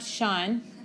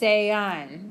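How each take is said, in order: First: The vowels merge into one syllable, like English. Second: Each vowel is pronounced separately, in two syllables. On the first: The speaker calls it wrong. "It's not Sean" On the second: The speaker calls it right. "because we pronounce every vowel in Spanish"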